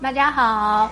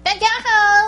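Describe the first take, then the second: First: It is said in her normal adult voice. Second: It is said in a light child's voice.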